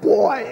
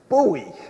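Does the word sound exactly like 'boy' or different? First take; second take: like boy; different. First: The word sounds exactly like 'boy'. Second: The word does not sound like 'boy'. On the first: The speaker calls it wrong. "not boy out there ringing the bell" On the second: The speaker calls it right. "the correct pronunciation is buoy"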